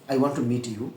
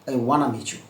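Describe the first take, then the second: First: Every word is said fully and separately. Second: The words are blended into wanna and meechu.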